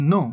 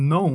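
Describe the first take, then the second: First: "no" with a plain short o, no glide; common local pronunciation. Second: "no" gliding from o into oo; correct pronunciation. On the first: Teacher showing learners how we usually say it, "no" with flat short o. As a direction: say "no" with one unchanging o vowel. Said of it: "এটাকে আমরা বলি". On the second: Teacher modelling the correct word for learners, "no" with gliding o-u. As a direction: round off "no" into a clear "noh-oo". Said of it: "এটার সঠিক উচ্চারণ হবে". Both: Shown as a demonstration.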